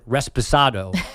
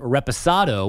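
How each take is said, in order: First: It is said with an extra s before the p. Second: It is said without an s before the p. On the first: The speaker calls it wrong. "He threw an extra S in there" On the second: The speaker calls it right. "instead of saying reposado"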